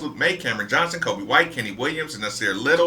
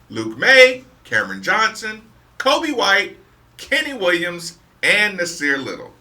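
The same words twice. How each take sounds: First: The names are read quickly. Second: The names are read slowly.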